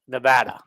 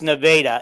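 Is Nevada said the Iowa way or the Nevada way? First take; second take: Nevada way; Iowa way. First: It is pronounced the way Nevadans say it. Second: It is pronounced the way Iowans say it. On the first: "In the state, it's Nevada" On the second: "In Iowa, it's Nevada"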